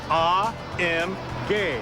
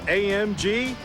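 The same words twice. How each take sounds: First: The letters are named with German pronunciation. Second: The letters are named with English pronunciation.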